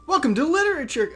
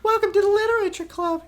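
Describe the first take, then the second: First: It is said in the speaker's normal voice. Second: It is said in a put-on girl's voice.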